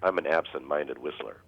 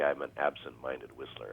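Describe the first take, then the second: First: It is said loudly. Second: It is said softly.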